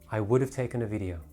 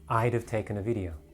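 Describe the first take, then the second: First: I would is said as two full words. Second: I would is shortened to one syllable. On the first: "I would is also shortened to I'd" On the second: "becomes I'd have taken a video"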